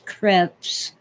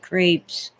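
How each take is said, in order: First: The word is said with its original pronunciation. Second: The word is said with the common American pronunciation. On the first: This is how the word is properly pronounced. "The real pronunciation is crepes" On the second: This is how most people in America say it. "most people in America anyway call them crepes"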